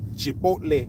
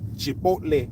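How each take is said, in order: First: It is said with a Spanish-style pronunciation. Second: It is said with a Spanish-style pronunciation.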